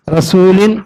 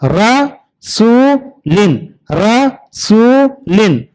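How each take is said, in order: First: Said in the usual way. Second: Slow drawn-out demo. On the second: Shown as a demonstration. Teacher drawing out रसूलिन slowly for children. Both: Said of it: "तो यहां भी देखिए".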